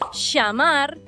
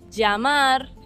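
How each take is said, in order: First: The ll sounds like an English sh. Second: The ll sounds like an English y. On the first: "como si fuese C H en tu caso y S H en el nuestro" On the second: "como si fuese ye"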